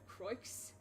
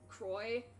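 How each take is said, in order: First: The name ends with an audible X sound. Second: The name ends without an X sound. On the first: The speaker calls it wrong. "instead of" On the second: The speaker calls it right. "I knew that I had to pronounce it, like, Croix ... I know that the X is silent"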